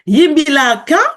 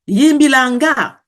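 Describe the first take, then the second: First: The last syllable begins with a k sound. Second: The last syllable begins with an ng sound. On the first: "with a ka or a nga" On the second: "with a ka or a nga"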